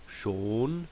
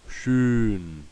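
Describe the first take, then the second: First: Schon, a plain long O; plain O vowel. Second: Schön, a rounded Ö, said louder; umlaut Ö in schön. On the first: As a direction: round Schon with no umlaut. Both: Shown as a demonstration.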